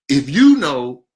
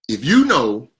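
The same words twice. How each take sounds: Both takes have the same delivery.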